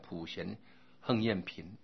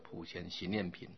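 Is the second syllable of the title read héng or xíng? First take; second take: héng; xíng. First: The character is pronounced héng. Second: The character is pronounced xíng. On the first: "有的读作像普贤横念品" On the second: "那我是读的普贤行念品"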